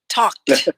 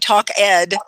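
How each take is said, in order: First: The word is said as one syllable. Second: The word is said as two syllables. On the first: The speaker calls it right. "No, talked" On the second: The speaker calls it wrong. "you don't say talk Ed"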